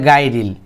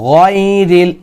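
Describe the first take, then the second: First: The first consonant is pronounced thin and light. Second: The first consonant is pronounced thick and heavy. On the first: The speaker calls it wrong. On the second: The speaker calls it right.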